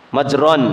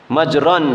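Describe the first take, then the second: The two takes are said the same way.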